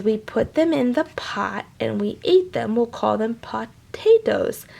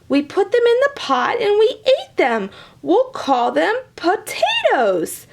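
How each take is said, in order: First: Said in the usual way. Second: High and proud naming; leprechaun voice. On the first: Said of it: "like pot and ate". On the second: Acted. Leprechaun naming potatoes, high and proud.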